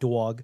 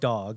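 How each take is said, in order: First: It is said with a thick New York accent. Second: It is said in a plain, unaccented way. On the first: "like not dog" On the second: "I still say dog"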